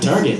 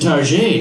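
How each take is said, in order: First: The last vowel is said the ordinary way. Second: The last vowel is changed to sound fancy. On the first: "not Target" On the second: "pronounce the last vowel of a word differently to sound important"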